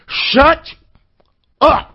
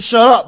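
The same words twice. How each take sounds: First: It is said with strong, forceful emphasis. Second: It is said plainly without extra force. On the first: A warning that things have gone too far. "Sometimes you got to put emphasis on shut up" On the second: An ordinary request to stop talking. "He don't just tell me to shut up"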